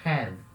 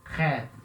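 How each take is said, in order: Both takes have the same delivery.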